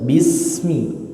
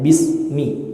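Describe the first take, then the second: First: The s sound is held with a steady hiss. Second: The s sound is cut off abruptly. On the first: The speaker calls it right. "Sin dijaga sofirnya atau desisnya, jangan terputus" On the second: The speaker calls it wrong. "jangan bismi"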